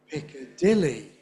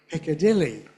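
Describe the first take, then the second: Both takes have the same delivery.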